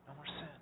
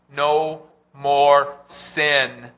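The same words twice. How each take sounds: First: Dropped to a near hush, much softer; a soft, hushed afterthought repeating the promise; quiet echo. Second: Drawn out slowly and pushed louder; the climax of the promise, stretched and ringing; slow emphatic proclamation. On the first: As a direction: let it fall away softly to yourself. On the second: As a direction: proclaim it slowly, letting each word land. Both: Shown as a demonstration.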